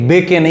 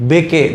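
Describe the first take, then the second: The two takes are said the same way.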